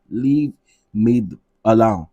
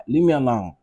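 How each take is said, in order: First: "Leave me alone" slower and louder, "leave" stressed; emphatic slow repeat. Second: Said in the usual way. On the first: Real, not acted. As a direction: drag out "Leave me alone" with weight on "leave". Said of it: "repeats slower, louder". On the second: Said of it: "repeats phrase".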